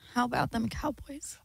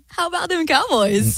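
First: It is said in a sad tone. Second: It is said in an embarrassed tone.

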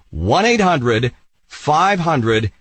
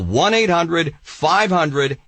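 First: The number is said slowly. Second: The number is said at normal speed.

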